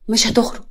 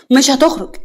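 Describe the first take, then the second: First: Said in the usual way. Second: Louder, higher refusal; insistent, pitched-up refusal; forceful refusal. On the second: Acted. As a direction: raise your voice to block him. Repeats refusal more forcefully.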